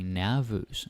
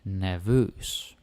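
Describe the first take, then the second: First: The stress is on the first syllable. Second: The stress is on the second syllable. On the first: The speaker calls it wrong. "you might feel like saying nervös because you're thinking like nervous" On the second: The speaker calls it right. "You want to put the stress on vös"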